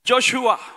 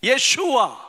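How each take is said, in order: First: The name begins with a 'jo' sound. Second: The name begins with a 'ye' sound. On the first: This is the English form of the name. "ஆங்கிலத்தில்" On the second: This is the original Hebrew form of the name. "மூல மொழியில எபிரேய மொழியில"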